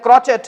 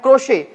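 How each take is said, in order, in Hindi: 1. यह 'chet' की आवाज़ से खत्म होता है और इसमें t है। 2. यह 'shay' की आवाज़ से खत्म होता है, इसमें t नहीं है। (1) "बहुत से लोग गलती से बोल देते हैं" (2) "इसका सही प्रोनाउंसिएशन होता है"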